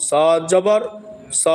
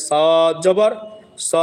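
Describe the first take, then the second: Both takes have the same delivery.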